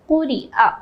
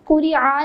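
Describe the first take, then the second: First: The last vowel follows a clear throat catch. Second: The last vowel follows without a throat catch. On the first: The speaker calls it right. "बल्कि हम पढ़ेंगे" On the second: The speaker calls it wrong. "इसको हम कुरी आ नहीं पढ़ेंगे"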